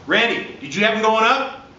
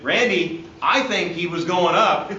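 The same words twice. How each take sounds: First: Did you have him going up? asked with a clear rising question tune, higher. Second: I think he was going up said as a statement, falling at the end; stated flatly. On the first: Referee calling to his partner Randy, rising question. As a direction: lift the end of "up" into a real question. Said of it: "I phrased it as a question". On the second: Referee telling partner Randy his call, falling statement. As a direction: state it, let "up" fall. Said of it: "If I said". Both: Shown as a demonstration.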